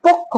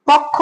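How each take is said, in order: First: পক্ষ with a rounded o, pok-kho; closed o vowel. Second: পক্ষ with an open "aw", pawk-kho; open first vowel. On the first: Teacher offers students the correct choice, পক্ষ as "pokkho". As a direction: turn the first vowel of পক্ষ into "o". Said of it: "উচ্চারণটা হবে". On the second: Teacher offers students the as-written choice, পক্ষ with open "aw". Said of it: "হবে উচ্চারণ নাকি পক্ষ হবে?". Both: Shown as a demonstration.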